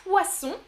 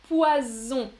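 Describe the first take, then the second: First: "Poisson" with a loud, hissed voiceless S, /wasɔ̃/; exaggerated S sound. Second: "Poison" with a loud, buzzing Z, /wazɔ̃/; exaggerated Z sound. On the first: Teacher drills the difference for viewers, loud hissed S. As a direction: punch the S in "Poisson", louder and higher. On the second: Teacher drills the difference for viewers, loud buzzing Z. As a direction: lean hard on the Z in "Poison", louder. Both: Shown as a demonstration. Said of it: "Vous entendez la différence?".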